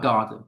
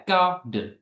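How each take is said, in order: First: Said in the usual way. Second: "garden" broken into two separate beats; "garden" in two distinct syllables. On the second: Shown as a demonstration. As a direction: sound out "garden" with a gap between syllables. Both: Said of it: "how many syllables do these words have".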